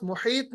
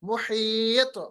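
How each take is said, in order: First: मुहीत quick, with a dead त; wrong pronunciation demo. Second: मुहीत stretched, त bouncing back; qalqalah demo. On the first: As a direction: end मुहीत without the echo. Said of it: "मुहीत नहीं पढ़ना". (बिना क़लक़ला के ग़लत मुहीत) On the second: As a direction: draw out मुहीत and echo the त. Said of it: "वापस लाना". (खींचकर सही मुहीत, त की गूँज) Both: Shown as a demonstration.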